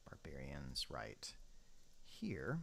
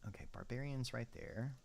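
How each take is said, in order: First: Unvoiced whisper to himself. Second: Said in the usual way. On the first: Shown as a demonstration. Gamer placing barbarians, whispering to himself. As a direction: whisper it under your breath.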